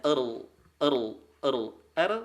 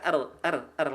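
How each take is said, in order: First: "er" with a dark, heavy r; thick ra. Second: "er" with a light r, clear e; thin ra. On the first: Teacher showing thickened ra, dark "er". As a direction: lift the tongue back on "er". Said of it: "kalau ditebalkan". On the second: Teacher showing ordinary tarkik, light "er". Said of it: "ra tarkik caranya biasa". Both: Shown as a demonstration.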